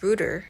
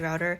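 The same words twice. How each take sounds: First: The word is given an unexpected pronunciation. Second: The word is given its expected pronunciation. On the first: This is how the narrator said it. "she pronounced router ... as router" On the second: This is the usual way to say it. "Wi-Fi router"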